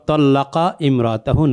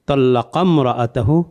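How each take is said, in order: First: Imra'atahu starts with a separate glottal stop. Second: Imra'atahu is linked smoothly to the previous word. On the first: The speaker calls it wrong. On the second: The speaker calls it right.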